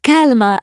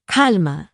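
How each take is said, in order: First: "Calma" said louder with a higher start; raised "Calma" to calm him down. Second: Said in the usual way. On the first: Acted. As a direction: call out "Calma" to settle him.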